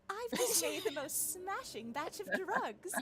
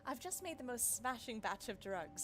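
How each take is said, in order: First: It is read in a put-on character voice. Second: It is read in the speaker's own normal voice.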